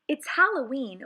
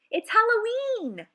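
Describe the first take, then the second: First: Said in the usual way. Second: High, loud gleeful exclamation; excited shout. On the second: Acted. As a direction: burst out with Halloween glee. Excited opening of the poem.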